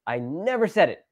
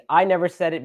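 First: "never" lifted high and stretched; flat-out denial, leaning hard on "never"; stress on NEVER. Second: Emphatic "I", lighter on the rest; stress on I. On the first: Rejecting the claim completely, stress on "never". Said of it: "denial, rejection". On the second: Explaining that somebody else may have said it, stress on "I". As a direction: lean on "I" at the start. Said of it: "Maybe somebody else said it". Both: Shown as a demonstration.

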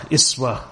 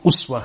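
First: "iswa" with an opening i; kasra pronunciation. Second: "uswa" with an opening u; dhamma pronunciation. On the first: Lecturer sums up the variants, "iswa" said with an i. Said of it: "or the kasra". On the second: Lecturer sums up the variants, "uswa" said with a u. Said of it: "pronounce them with a dhamma". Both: Shown as a demonstration.

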